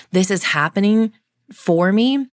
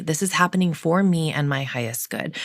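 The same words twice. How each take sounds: First: "This is happening for me" pushed out higher and louder; emphatic affirmation. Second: Said in the usual way. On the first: Real, not acted. Affirming to herself that it happens for her, declared loudly.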